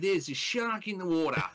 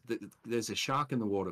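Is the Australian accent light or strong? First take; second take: strong; light. First: It has a strong, exaggerated Australian accent. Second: It has a light Australian accent. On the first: "put on fuller Australian accents" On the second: "instead of saying"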